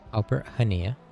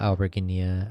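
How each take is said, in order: First: The surname begins without any G sound. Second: The surname begins with a hard G sound. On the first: The speaker calls it right. "The G is silent" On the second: The speaker calls it wrong. "I'm so used to saying the G now"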